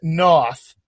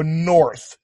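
First: North said nah-th, open rounding, Boston accent; Boston accent north with loose lips. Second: North with tightly rounded lips; north, lips pushed round. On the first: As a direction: drop the R in north, Boston style. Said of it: "When we do it in this accent". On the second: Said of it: "when you would say this in your accent". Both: Shown as a demonstration.

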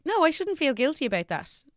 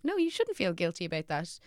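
First: Higher, insistent self-reassurance; pitched-up quoted inner voice; high self-talk quote. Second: Said in the usual way. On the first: Retold or imitated. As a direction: tell yourself firmly, pitched up. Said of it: "I've tried to be like". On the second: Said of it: "other people going".

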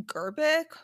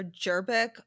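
First: Gerbic with a hard G, as in "get". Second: Gerbic with a soft G, like "Jerbic". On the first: Host unsure of a skeptic's surname, Gerbic with hard G. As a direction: say Gerbic starting on a hard "guh" sound. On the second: Host offering alternative surname pronunciation, Gerbic with soft G. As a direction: say Gerbic starting on a "j" sound. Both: Shown as a demonstration. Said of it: "I'm sorry for pronouncing her name wrong".

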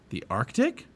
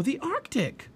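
First: Rising, incredulous question at normal pitch; doubtful question. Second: Put-on high, excited girl's exclamation; thrilled. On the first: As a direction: query it as if unsure. Jack doubts the destination. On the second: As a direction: marvel at it in a very high voice. Annie thrilled by book title. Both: A narrator's reading.

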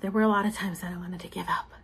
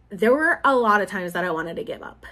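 First: Hushed, fast whispered confession. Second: Said in the usual way. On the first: Real, not acted. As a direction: whisper it as a private admission. Repeats line as a whisper.

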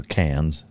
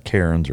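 First: "Cairns" said like "cans"; local pronunciation. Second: Said in the usual way. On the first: Shown as a demonstration. Speaker shows how locals say the town, "Cairns" as "cans". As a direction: drop the r in "Cairns", as Australians do. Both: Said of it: "the way they pronounce it".

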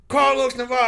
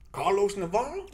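First: High, loud name call; matter-of-fact projected roster call; coach's roll call. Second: Higher, questioning name call; doubtful roll call, rising at the end; puzzled coach. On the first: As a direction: call the name out across the gym. Coach calling his name. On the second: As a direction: read the name as if it can't be right. Coach doubts name after seeing him. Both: Retold or imitated.

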